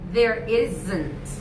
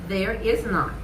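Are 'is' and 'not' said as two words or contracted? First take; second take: contracted; two words. First: The words is and not merge into isn't. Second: The words is and not are said separately.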